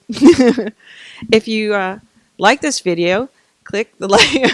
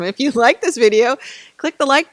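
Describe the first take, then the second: First: It is said flatly, with little energy. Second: It is said with lively, enthusiastic energy. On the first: The speaker calls it wrong. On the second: The speaker calls it right.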